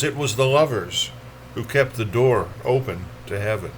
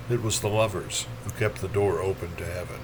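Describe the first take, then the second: First: Recited line at a steady, full level; first statement of a poem's refrain; poetry reading. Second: Soft, low echo of a verse line; poetry line let drop to a murmur; hushed refrain. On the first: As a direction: state the verse line firmly, letting it descend. First take of a repeated poem line. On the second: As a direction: repeat it quietly, lower and inward. Poem line repeated, much softer. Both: Acted.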